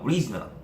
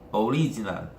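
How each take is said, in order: First: The word is said quickly, first syllable barely heard. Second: The word is said at a normal pace. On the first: "거의 빨리 발음하다 보면요" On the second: "발음이 거의 original"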